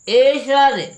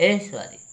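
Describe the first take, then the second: First: ऐश्वर्य as "e-shaary", full "sha", high and loud; mispronounced ऐश्वर्य. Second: ऐश्वर्य with a half "sh" run into "v"; joined "shv" cluster in ऐश्वर्य; corrected pronunciation. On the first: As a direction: say ऐश्वर्य as "AY-SHARY", dropping the v. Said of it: "सा जो है पूरी नहीं". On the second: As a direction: say ऐश्वर्य as "aish-VARY-a". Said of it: "आधी होनी चाहिए". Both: Shown as a demonstration.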